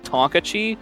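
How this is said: The word is pronounced in an American way. The speaker calls it wrong. "which is just so American of me"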